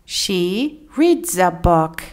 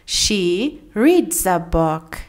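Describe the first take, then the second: The two takes are said the same way.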